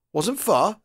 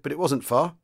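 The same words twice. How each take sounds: First: High-pitched puzzled echo question. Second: Said in the usual way. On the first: A narrator's reading. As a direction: echo WASN'T FAR back in puzzlement. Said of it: "The sergeant major seemed puzzled". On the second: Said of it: "he said".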